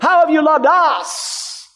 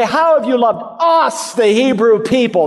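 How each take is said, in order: First: "have" stressed, slow and high. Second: "us" stressed, rising high. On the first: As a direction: draw out "How have you loved us" with weight on "have". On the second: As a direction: lean hard on "us" in "How have you loved us". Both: Shown as a demonstration. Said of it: "That's the emphasis in there".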